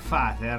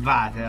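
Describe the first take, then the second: First: The word begins with an F sound. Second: The word begins with a V sound. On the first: The speaker calls it right. "un brano che si intitola Vater" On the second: The speaker calls it wrong. "non Vater, anche se è scritto con la V"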